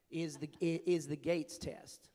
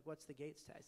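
First: Put-on slow, drawn-out Southern accent; bad Southern accent. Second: Said in the usual way. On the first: Delivering the governor's punchline in a slow mock Southern accent. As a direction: stretch "is the Gates test" slowly in a Southern accent. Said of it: "apologize for my bad Southern accent". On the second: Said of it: "And I was like".

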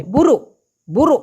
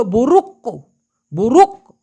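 First: "বুরু" with the final k swallowed into a throat stop; ওদের মতো উচ্চারণ. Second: "বুরুক" with the final k fully released; পূর্ণ ক-সহ উচ্চারণ. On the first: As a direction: end "বুরু" abruptly, no released k. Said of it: "কিন্তু ওরা বলে". ("বুরু"-র শেষে ক না বলে গলায় ধাক্কা) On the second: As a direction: hit and release the last k of "বুরুক". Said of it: "উচ্চারণটা হওয়া উচিত ছিল". ("বুরুক"-এর শেষে স্পষ্ট ক) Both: Shown as a demonstration.

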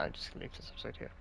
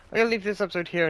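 First: Fast, much softer whisper to himself; whispered aside. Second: Said in the usual way. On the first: Real, not acted. Host deciding to end the episode, whispered aside. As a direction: mutter the decision under his breath. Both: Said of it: "Nah, nah".

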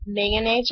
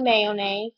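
First: "mayonnaise" squeezed to MAN-aze; shortened variant. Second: "mayonnaise" said as MAY-o-naze; full variant. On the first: Vlogger reading accent-challenge words, "mayonnaise" without its middle o. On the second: Offering the other option in an accent challenge, "mayonnaise" as MAY-o-naze. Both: Shown as a demonstration. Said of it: "Pronounce the following words".

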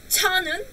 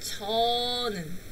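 First: 저는 said the wrong way, pitched higher; 저는 pushed up high as the mistake. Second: 저는 said softly, the right way; a soft, clean 저 in 저는; correct 저는. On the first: Teacher shows students the wrong 저는. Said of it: "No es". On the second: Teacher models the correct 저는 for students. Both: Shown as a demonstration.

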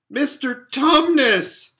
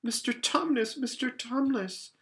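First: Very loud, high, drawn-out yell; bawling. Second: High-pitched, distressed calling; great distress. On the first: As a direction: bawl the name right in his ear. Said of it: "bawled Lucy in his ear". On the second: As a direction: plead with him in alarm, voice lifted high. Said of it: "said Lucy in great distress". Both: A narrator's reading.

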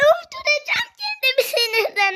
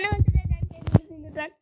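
First: High, raised rage cry; exasperated shout. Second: Said in the usual way. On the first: Real, not acted. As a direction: wail it out in pure frustration. Rage at the match.

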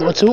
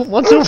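First: Said in the usual way. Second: What's who, with who pushed up high and louder in a rise; who punched up higher and louder; stress on who. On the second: Shown as a demonstration. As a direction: repeat it, lifting the who up high.

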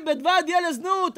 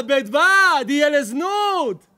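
First: Said in the usual way. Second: Slow, loud Talmud quote shouted; preaching shout. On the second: Real, not acted. Rabbi to congregation, loud slow preaching shout. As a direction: thunder the Gemara line to the congregation. Rabbi cites Gemara at full force.

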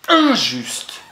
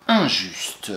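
First: "injuste" said higher and louder, with a falling close; stress on injuste. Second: Said in the usual way. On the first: Shown as a demonstration. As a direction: give "injuste" as the stressed answer, lifted and loud. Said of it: "on va mettre c'est". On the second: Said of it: "I N, j'ai le droit".

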